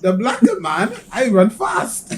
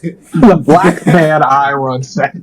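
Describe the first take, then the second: First: Mock Norwegian accent, rising ends; lightly put-on Norwegian accent. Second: Put-on slow, drawn-out Norwegian accent; dragged-out mock Norwegian accent. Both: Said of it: "your Norwegian accent".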